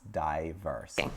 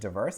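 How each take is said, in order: First: It is said with a British pronunciation. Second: It is said with an American pronunciation. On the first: "in British English, this could be pronounced diverse" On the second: "we pronounce this word diverse in American English"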